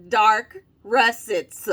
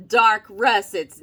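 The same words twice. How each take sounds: First: DARK RUSSETS stretched out very slowly; mock-reverent, drawn-out DARK RUSSETS; respectful emphasis. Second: Said in the usual way. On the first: Shown as a demonstration. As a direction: give DARK and RUSSETS each a grand, separate beat. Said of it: "put some respect on that name now". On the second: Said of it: "put some respect on that name".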